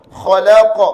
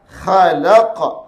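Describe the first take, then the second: First: Khalaqa with rounded vowels, like kholako; wrong, closed. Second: Khalaqa slow, with open unrounded a vowels; open sound. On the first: Teacher shows the reading that is wrong, closed demo. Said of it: "Baca begitu salah". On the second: Teacher corrects the wrong reading, open thick demo. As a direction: stretch Khalaqa out, mouth open, tongue root raised. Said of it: "Dia sifat membuka". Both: Shown as a demonstration.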